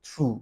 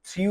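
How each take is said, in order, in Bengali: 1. স্বরটি সাধারণ 'oo'। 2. স্বরটি 'yoo'-র মতো গড়িয়ে যায়। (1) "এটা হবে থ্রু" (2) "এটার উচ্চারণটা থ্রিউ হবে না"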